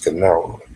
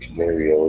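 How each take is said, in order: First: No extra sound comes before the final 'o'. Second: An extra 'ee' sound comes before the final 'o'. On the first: The speaker calls it right. "it's Canaro" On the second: The speaker calls it wrong. "Instead of saying Canario"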